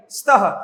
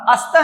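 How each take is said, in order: First: स्तः begun straight on the "s", as "staha"; correct initial cluster. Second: अस्तः with an added "a" before "st"; mispronounced cluster. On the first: Teacher correcting the mistake, स्तः said as "staha". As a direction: start स्तः on "st" without any vowel before it. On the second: Teacher showing children what to avoid, अस्तः with extra vowel. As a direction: put a vowel in front, अस्तः as "astah". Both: Shown as a demonstration. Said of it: "अस्तः नहीं बोलेंगे".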